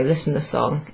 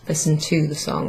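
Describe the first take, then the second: First: Said in the usual way. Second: "to" picked out in the phrase; stress on TO. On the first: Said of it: "You just use the verb". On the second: Shown as a demonstration. Teacher showing the unneeded English word, stress on "to". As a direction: lean on the word "to". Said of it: "translate the word to after it".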